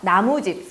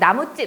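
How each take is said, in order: First: The last syllable starts with a plain consonant. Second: The last syllable starts with a tense consonant. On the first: A house made of wood. "사이소리 없는 상태로 발음하면" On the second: A shop that sells wood. "사이소리 있는 상태로 발음하면"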